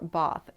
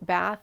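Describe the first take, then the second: First: Bath is said with an English accent. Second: Bath is said with an American accent. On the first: "pronouncing Bath in the English accent" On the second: "alternating between American accent"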